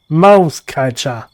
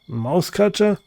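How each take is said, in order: First: It is said with passion and feeling. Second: It is said flatly, as a plain question.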